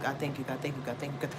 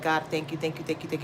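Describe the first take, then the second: First: Soft murmured thanks; quiet prayer. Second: Low murmured thanks to God; grateful prayer. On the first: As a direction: whisper thanks to God. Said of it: "like, a hundred times". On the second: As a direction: say thanks softly, again and again. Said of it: "I'll say that a hundred times". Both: Retold or imitated.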